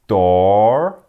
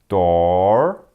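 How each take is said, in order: Both takes have the same delivery.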